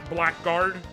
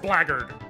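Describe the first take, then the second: First: It is said as two full words, black guard. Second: It is said as blaggard, with the middle reduced. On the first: The speaker calls it wrong. "pronounced that shit blackguard" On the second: The speaker calls it right. "it's pronounced blackguard"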